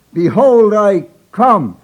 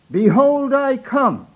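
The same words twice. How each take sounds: First: Louder and higher, leaning into the pulpit; booming proclamation. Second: High, nervous pulpit announcement. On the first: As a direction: boom it out over the pulpit. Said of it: "he breathed down on it". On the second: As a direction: proclaim it nervously, higher. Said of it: "he announced again". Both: Retold or imitated.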